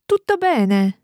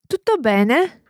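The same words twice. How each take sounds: First: The pitch falls at the end. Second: The pitch rises at the end.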